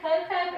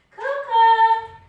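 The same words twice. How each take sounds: First: Said in the usual way. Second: Loud, high, sung-out call; long yelled name for the dog; shouting the dog's name. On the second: Real, not acted. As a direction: call the dog from across the house.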